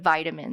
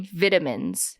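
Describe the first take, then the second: First: It is said with a North American pronunciation. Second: It is said with a British pronunciation. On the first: This is how the speaker's own group says it. The speaker calls it right. "instead of vitamins" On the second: This is how people in England say it. The speaker calls it wrong. "people in England, British, like British Eng- English, um, they say vitamins"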